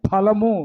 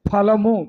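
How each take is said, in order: Both takes have the same delivery.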